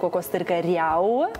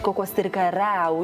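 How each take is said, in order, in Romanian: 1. Terminația are un diftong i-a. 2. Terminația are un diftong e-a. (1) "și nu cocostârcăriau" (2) "deci cocostârcăreau"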